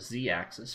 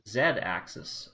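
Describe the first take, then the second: First: The letter Z is said the American way. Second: The letter Z is said the non-American way.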